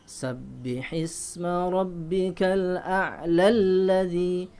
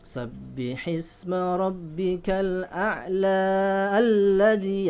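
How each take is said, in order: First: The vowel is cut short and runs into alladzi. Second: The vowel is held long before alladzi. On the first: The speaker calls it right. "Kalau diteruskan" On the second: The speaker calls it wrong. "bukan ... tidak boleh seperti itu"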